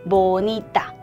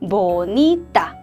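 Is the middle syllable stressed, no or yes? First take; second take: yes; yes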